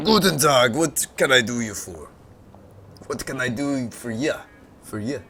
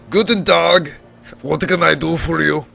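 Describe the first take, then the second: First: Put-on a weak, lightly German-tinged old man; a half-hearted old sage with a German touch; Deckard Cain voice. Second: Put-on higher, louder old man with a German accent; gruff but kind old tinkerer, German accent; Deckard Cain voice. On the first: Junkyard tinkerer greets the visitor, weak German-accented old man. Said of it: "That's terrible". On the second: Junkyard tinkerer greets the visitor, gruff German-accented old man. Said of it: "a Deckard Cain voice for this guy".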